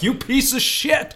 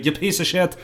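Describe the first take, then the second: First: Much higher, slow mock outrage; ghostly ancestor scolding from the grave; imitating a furious ancestor; angry Irish ancestor. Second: Lightly put-on Irish accent; mock Irish ancestor cursing. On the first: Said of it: "Irish ancestors are rolling in their graves like". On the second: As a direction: correct it into an Irish brogue. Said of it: "more accurately".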